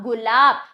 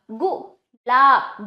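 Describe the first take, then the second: First: Said in the usual way. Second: "गुलाब" very slowly split as गु, then लाब; syllable by syllable. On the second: Shown as a demonstration. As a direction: sound out "गुलाब" in drawn-out pieces. ("गुलाब" को तोड़कर, बहुत धीरे) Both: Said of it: "ग पे हमें ऊ का उच्चारण किया जा रहा है".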